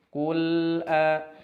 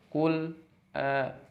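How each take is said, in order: First: The two words flow together without a break. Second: There is a break between the two words. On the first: The speaker calls it right. "harus nyambung ... mengalir" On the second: The speaker calls it wrong. "kul terputus baru a, itu merupakan kesalahan"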